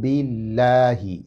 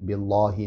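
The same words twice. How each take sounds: First: The L sound is light and thin. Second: The L sound is heavy and full. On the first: The speaker calls it right. "बारीक करके पढ़ेंगे।" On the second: The speaker calls it wrong. "बिल्लाहि नहीं करना।"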